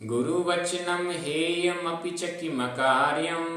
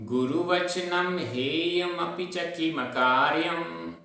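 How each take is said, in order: No difference in how they are said.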